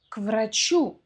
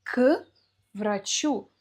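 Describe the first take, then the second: First: К врачу run together as "kvrachú"; one word. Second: К врачу broken into "k", pause, "vrachu"; split preposition. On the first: Teacher giving the example, к врачу joined as one word. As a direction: say к врачу on one breath without a gap. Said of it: "произносим это в одно слово". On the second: Teacher showing the separate words, к врачу split apart. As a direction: isolate К before врачу. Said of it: "Но произносим это в одно слово". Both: Shown as a demonstration.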